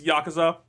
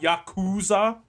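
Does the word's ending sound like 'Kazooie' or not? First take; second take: not like Kazooie; like Kazooie. First: The middle does not sound like Kazooie. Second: The middle sounds like the word Kazooie. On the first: The speaker calls it right. "it's Yakuza" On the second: The speaker calls it wrong. "I know it's not Yakuza"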